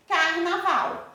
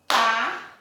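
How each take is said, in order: First: Said in the usual way. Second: "carnaval" in three spaced beats, car, na, val; clapped-out syllables. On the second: Shown as a demonstration. ("carnaval" pausado, separando car, na, val) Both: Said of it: "Quantas vezes a Pro bateu".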